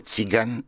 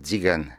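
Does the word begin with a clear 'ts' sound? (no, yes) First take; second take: yes; no. First: The word begins with a clear 'ts' sound. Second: The word begins without a clear 'ts' sound. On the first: The speaker calls it right. "je dirais tzigane" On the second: The speaker calls it wrong. "et pas tzigane"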